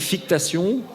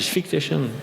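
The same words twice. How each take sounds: First: The word is said with a French accent. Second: The word is said with an English accent. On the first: This is how it used to be said. The speaker calls it wrong. "avant j'aurais dit fictation" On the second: This is how it is said now. The speaker calls it right. "aujourd'hui je dis fictation"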